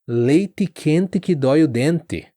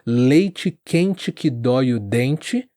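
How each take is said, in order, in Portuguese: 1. Os sons de "t" e "d" soam como "t" e "d" simples. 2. Os sons de "t" e "d" soam como "ch" e "j". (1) "Algumas regiões soam" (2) "no geral a maior parte do Brasil fala dessa maneira"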